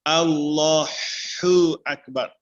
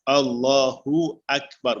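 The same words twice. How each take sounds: First: The h in Allahu is a harsh throaty sound. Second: The h in Allahu is a soft breathy sound. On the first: The speaker calls it wrong. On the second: The speaker calls it right. "Dia mesti Allahu akbar"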